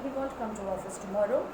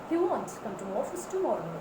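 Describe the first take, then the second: First: The word won't is said without stress. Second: The word won't is said with strong stress. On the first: The speaker calls it wrong. "Instead of saying" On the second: The speaker calls it right. "give emphasis to won't"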